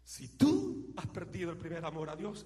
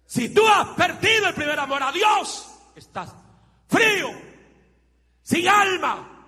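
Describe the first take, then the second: First: Said in the usual way. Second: High, loud shout of the same line; preaching shout. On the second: Acted. Preacher warning lukewarm believers in a shout. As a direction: thunder the warning at full force.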